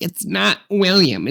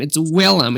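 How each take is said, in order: First: "William" said WILL-yum, slowly corrected; mistaken name. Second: "Willem" said WILL-um, higher; two syllables in "Willem", no y-glide; Danish name version. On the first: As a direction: stretch out "William" as the wrong name, with a y-glide. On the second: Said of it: "It's the Danish one". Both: Shown as a demonstration.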